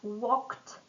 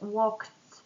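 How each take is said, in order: First: The word ends with a t sound. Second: The word ends with a d sound. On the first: The speaker calls it right. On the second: The speaker calls it wrong.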